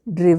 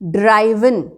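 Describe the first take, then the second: First: The first vowel is short 'i', as in 'give'. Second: The first vowel is 'eye', as in 'drive'. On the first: The speaker calls it right. "Pronunciation is ड्रिवन" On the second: The speaker calls it wrong. "ड्राइवन नहीं बोलना है"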